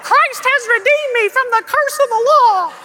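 It is said in a small puppet-like voice.

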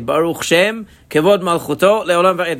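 The words are grouped in pairs, breaking after Shem. The speaker calls it wrong. "They think you put every two words together"

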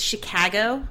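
The 'a' vowel is strongly flattened. This exaggerates the local way. "to overdo it, it's Chicago"

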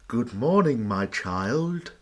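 The priest's voice sounds creepy and sinister.

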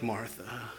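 The name is said in a gentle, tender tone. The speaker is cared for, not scolded. The speaker calls it right. "I think it was a lot more like Martha"

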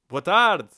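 The greeting is said in an overdone, exaggerated way.

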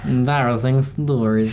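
It is said in a weird put-on voice.

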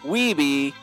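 The name is said with an American pronunciation. "if you're American"

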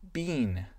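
It is said with a British accent. "avec l'accent anglais"

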